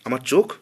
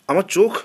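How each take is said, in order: First: Said in the usual way. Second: আমার চোখ repeated higher and louder, চোখ rising in alarm; panicked, disbelieving echo of চোখ. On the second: A narrator's reading. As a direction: let the fear break through on চোখ.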